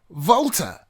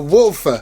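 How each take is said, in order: First: It starts with a V-like sound and has plain T. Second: It starts with an English W and ends 'fer'. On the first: This is the German way of saying it. The speaker calls it right. "the W almost sounds like a V or a soft F, and the T H turns into just the T" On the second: This is the English way of saying it. The speaker calls it wrong. "the way I am saying wolfer is not exactly correct. In English, it is one hundred percent correct"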